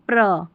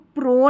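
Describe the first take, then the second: First: The syllable has a short reduced vowel. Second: The syllable has a full long o vowel. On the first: The speaker calls it right. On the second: The speaker calls it wrong. "इसको प्रो नहीं पढ़ना है"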